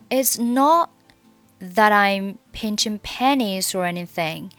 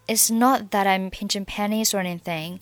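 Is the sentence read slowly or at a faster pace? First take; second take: slow; faster. First: The sentence is read at a slow pace. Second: The sentence is read at a faster pace. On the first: "我们把整句话从well 开始慢速读一下" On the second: "下面我们把速度加快一点。"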